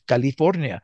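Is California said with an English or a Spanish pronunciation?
Spanish. It is said with a Spanish pronunciation. The speaker calls it right. "I like to pronounce Spanish words in Spanish"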